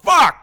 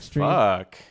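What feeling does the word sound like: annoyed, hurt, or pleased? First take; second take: annoyed; pleased. First: The word sounds irritated and angry. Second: The word sounds pleased and appreciative. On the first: Something is bothering the speaker. "You can say it like something's pissing you off" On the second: The speaker is enjoying something. "You can say it like you like it"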